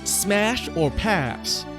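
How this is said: Pass is said in an American accent. "because they're American, they go"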